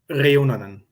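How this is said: It is said in Finnish with a rolled R. "you roll your R's"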